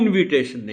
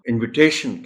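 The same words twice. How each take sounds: First: The stress is on the first syllable. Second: The stress is on the third syllable. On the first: The speaker calls it wrong. "शुरू की जो आय है उस पर stress नहीं हो सकता इनविटेशन नहीं कह सकते" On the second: The speaker calls it right. "हम इनविटेशन कहेंगे ... वो स्ट्रेस टी पर चला जाएगा"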